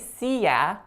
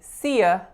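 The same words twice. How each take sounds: First: The last vowel is a full 'ah' sound. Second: The last vowel is a short schwa. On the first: The speaker calls it wrong. "we don't say see ya" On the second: The speaker calls it right. "the Y A is a y schwa"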